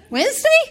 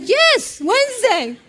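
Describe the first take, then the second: First: Very high rising squeak of disbelief; incredulous question. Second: High, falling, insistent answer; emphatic confirmation. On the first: Stunned adoptive mother checking the day, incredulous. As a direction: ask it high, half laughing. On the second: Agency caller confirming to stunned mother, emphatic. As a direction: confirm it firmly in a raised pitch. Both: Retold or imitated.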